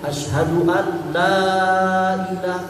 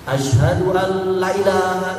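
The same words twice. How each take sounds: First: The vowel in la is drawn out long. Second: The vowel in la is short. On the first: It says there is no god but Allah. The speaker calls it right. "kalau la-nya dibaca panjang" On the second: It says there truly is a god besides Allah. The speaker calls it wrong. "itu salah"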